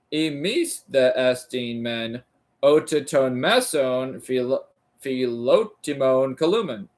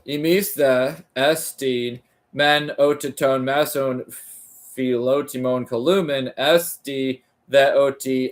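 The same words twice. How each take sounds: First: Sounding it out. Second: Smooth, connected second reading of the same Greek phrase; now read it through in one flowing line; fluent reread. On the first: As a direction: feel your way through each syllable. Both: Shown as a demonstration. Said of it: "Imis columen, oh".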